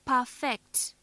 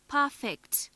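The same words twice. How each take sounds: First: Per-FECT, weight on the last syllable; stress on second syllable. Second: PER-fect, weight on the opening syllable; stress on first syllable. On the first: Teacher shows the verb perfect, second syllable stressed. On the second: Teacher shows the adjective perfect, first syllable stressed. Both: Shown as a demonstration. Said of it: "Note how the stress on different syllables".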